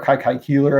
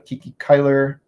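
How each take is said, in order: First: The name starts with a 'kye' sound. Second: The name starts with a 'kee' sound. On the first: The speaker calls it right. "I should say" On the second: The speaker calls it wrong. "I mispronounced it"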